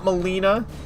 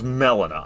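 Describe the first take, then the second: First: The first part does not sound like melon. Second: The first part sounds like the word melon. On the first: "Why is it not Melina?" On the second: "I can't believe it's pronounced Melina... Why is it melon?"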